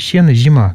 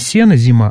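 First: The s and z sound lisped and hushing. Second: The s and z sound plain and clear. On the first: This is the local dialect pronunciation. "шепелявый сизи, как в польском" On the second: This is the standard literary pronunciation. "не сено зима"

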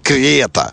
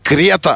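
First: The first vowel is doubled and drawn out. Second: The first vowel is said short and single. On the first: The speaker calls it wrong. "постоянно Е удваивается, хотя этого не надо делать" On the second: The speaker calls it right. "Крета, а не"

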